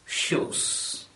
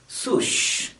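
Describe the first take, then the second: First: The word begins with an sh sound. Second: The word begins with an sw sound. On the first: The speaker calls it right. "instead of shoes" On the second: The speaker calls it wrong. "or at least swoosh"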